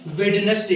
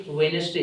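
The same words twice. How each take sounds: First: "वेडनेसडे" with the first d sounded, "wed-nes-day"; wrong pronunciation. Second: "वेडनेसडे" said "wen-es-day", no first d; silent d. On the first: Teacher showing how children read it, "वेडनेसडे" with sounded d. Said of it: "जबकि ये वेडनेसडे नहीं होता". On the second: Teacher giving students the correct word, "वेडनेसडे" with silent d. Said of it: "इसको silent रखेंगे और कहेंगे". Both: Shown as a demonstration.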